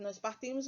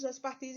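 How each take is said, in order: First: Said in the usual way. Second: Nós said with a lift and extra weight; stress on nós. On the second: Shown as a demonstration. Teacher repeating the conjugation for the class, stressing nós. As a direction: lean on the word nós as you repeat it.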